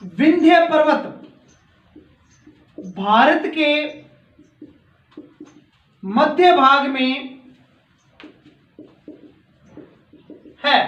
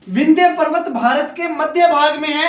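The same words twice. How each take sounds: First: Slow, word by word, with long gaps; teacher dictates a sentence for students to write down, slowly; slow dictation. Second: Said in the usual way. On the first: Shown as a demonstration. Dictating each word slowly so pupils can copy it. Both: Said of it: "ये जो वाक्य है note कर लीजिए".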